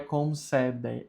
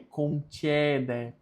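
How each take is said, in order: First: The c before e sounds like 's'. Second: The c before e sounds like 'tch'. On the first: The speaker calls it wrong. "não é" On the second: The speaker calls it right. "é concede, porque o C com E tem som de tché"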